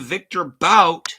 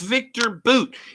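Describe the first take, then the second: First: The surname has an 'ow' vowel, like out. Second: The surname has an 'oo' vowel, like boot. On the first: The speaker calls it wrong. "you're mispronouncing words" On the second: The speaker calls it right. "It's Victor Boot"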